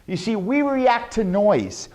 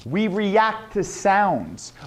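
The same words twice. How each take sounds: First: Said in the usual way. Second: Slow. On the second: Shown as a demonstration. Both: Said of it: "voice fluctuation".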